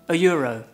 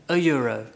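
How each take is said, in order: Both takes have the same delivery.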